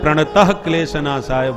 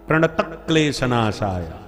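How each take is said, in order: First: A breathy h sound follows 'pranata'. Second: No breathy h sound follows 'pranata'. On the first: The speaker calls it wrong. "प्रणतः में विसर्ग लगा देते हैं" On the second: The speaker calls it right. "बिना विसर्ग के"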